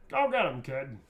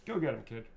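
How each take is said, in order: First: Rousing catchphrase. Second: Said in the usual way. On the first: Acted. Repeats the quote performed, after plain take.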